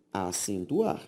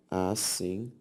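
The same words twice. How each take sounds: First: Said in the usual way. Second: "Acentuar" softer and lower, broken into syllables with pauses; split into syllables. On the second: Shown as a demonstration. Teacher repeats the word for the class, syllable by syllable. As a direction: sound out "Acentuar" slowly, piece by piece.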